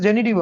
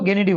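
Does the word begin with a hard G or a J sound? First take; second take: J sound; hard G. First: The word begins with a soft J sound. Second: The word begins with a hard G sound. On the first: This is the English pronunciation. "English में इट्स जेनिटिव only" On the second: This is the German pronunciation. "German में वो गेनिटिव हो गया है"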